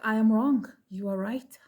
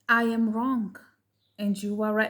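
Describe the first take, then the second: First: It sounds insincere and dismissive. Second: It sounds sincere and heartfelt.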